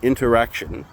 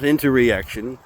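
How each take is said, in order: First: It is said without an extra middle syllable. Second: It is said with an extra middle syllable. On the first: The speaker calls it right. "here's the word that I was pronouncing wrong in the last video" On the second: The speaker calls it wrong. "not interreaction"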